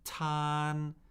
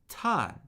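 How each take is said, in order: First: The pitch stays high and level. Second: The pitch falls sharply from high.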